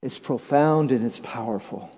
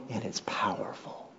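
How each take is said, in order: First: Said in the usual way. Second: Whisper. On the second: Real, not acted. Repeated line, whispered first.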